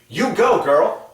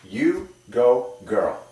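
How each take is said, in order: First: It sounds natural, with lively zest. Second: It sounds forced and a little fake. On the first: The speaker calls it right. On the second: The speaker calls it wrong.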